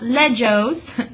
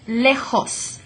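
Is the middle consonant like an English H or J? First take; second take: J; H. First: The middle consonant sounds like an English J. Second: The middle consonant sounds like an English H. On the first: The speaker calls it wrong. "that's not lejos" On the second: The speaker calls it right. "J in Español makes that H sound"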